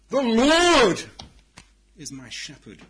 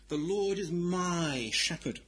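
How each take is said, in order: First: The word Lord carries the stress. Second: The word my carries the stress. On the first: The focus is on the greatness of the shepherd. The speaker calls it right. "The emphasis must be on God and his greatness" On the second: The focus is on the speaker's own claim. The speaker calls it wrong. "emphasizing the word my"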